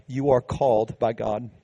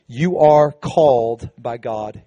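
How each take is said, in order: First: "You are called by God" repeated softly and gently; the same line echoed quietly to the church. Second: "you are called by God" slow and deliberate, weight on "are"; the main point of the sermon, said slowly with emphasis; slow emphatic declaration. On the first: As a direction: drop the volume and let it sink in. Preacher repeats key point. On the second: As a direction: lean on "are" and let each word land. Preacher declares key point. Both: Acted.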